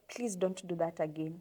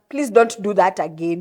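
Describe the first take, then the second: First: It is said calmly and gently. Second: It is said in an aggressive tone.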